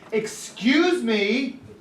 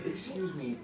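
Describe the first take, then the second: First: It is said in a nasty, rude tone. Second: It is said in a polite, helpful tone. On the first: The speaker is annoyed and being rude. The speaker calls it wrong. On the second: The speaker is politely getting attention. The speaker calls it right.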